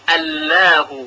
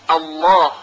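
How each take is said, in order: First: The L is pronounced light and thin. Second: The L is pronounced heavy and full. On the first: The speaker calls it wrong. "نمیتونیم حرف لام رو ترقیق کنیم، بگوییم الله ... اینها غلط هست" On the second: The speaker calls it right. "یعنی با صدای درشت باید تلفظ بشه"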